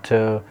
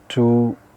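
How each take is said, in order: First: The word has a reduced vowel. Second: The word has a full vowel.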